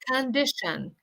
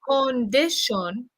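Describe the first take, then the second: First: The first vowel is a reduced schwa sound. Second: The first vowel is a full O sound. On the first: The speaker calls it right. "we say con, condition" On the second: The speaker calls it wrong. "instead of saying condition"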